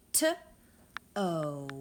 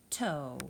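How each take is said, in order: First: T-O split into two separate sounds, louder; segmenting sounds. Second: Said in the usual way. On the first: Shown as a demonstration. Teacher splits toe into its sounds for the class. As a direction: pull toe apart into T and O. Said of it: "Two sounds". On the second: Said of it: "Our next word is the word toe".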